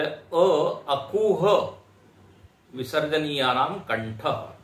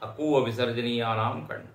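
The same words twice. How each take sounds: First: Stretched, slow opening syllable, then the rule; drawn-out recitation. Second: Said in the usual way. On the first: Retold or imitated. Teacher quoting the sutra's author, slowly drawn out. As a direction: draw out the first sound as if reciting. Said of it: "तो बोले".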